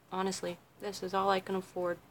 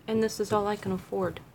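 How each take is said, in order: First: Much softer, confiding under the breath; softly admitting it to the viewers; quiet aside. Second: Said in the usual way. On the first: Shown as a demonstration. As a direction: drop it down like an honest confession. Repeats line, then quieter confiding take.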